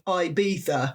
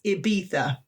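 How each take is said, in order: First: It is pronounced the English way. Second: It is pronounced the Spanish way. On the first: The speaker calls it wrong. "English people would say Ibiza" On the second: The speaker calls it right. "but it's Ibiza"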